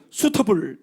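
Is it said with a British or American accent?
British. The t is a clear t sound, British style.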